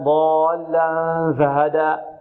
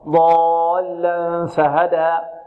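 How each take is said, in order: First: The f sound is voiced and buzzing. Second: The f sound is voiceless and breathy. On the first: The speaker calls it wrong. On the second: The speaker calls it right.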